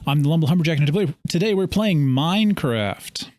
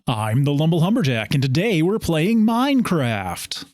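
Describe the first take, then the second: First: It is said in his normal voice. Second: It is said in a game show host voice.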